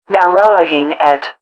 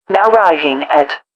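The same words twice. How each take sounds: The two takes are said the same way.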